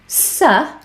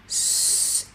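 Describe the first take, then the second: First: The consonant is followed by an 'uh' vowel. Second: A pure consonant with no vowel after it. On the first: The speaker calls it wrong. "is the schwa sound" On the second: The speaker calls it right. "is the pure sound"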